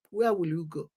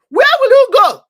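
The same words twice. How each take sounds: First: Dropped low and soft, almost to himself; quiet. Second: Shouted high and loud, Where pushed hard; loud cry. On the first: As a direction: let the question sink in softly. Repeated rhetorical question, second take. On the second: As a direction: hurl the question at them. Repeated rhetorical question, first take. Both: Real, not acted.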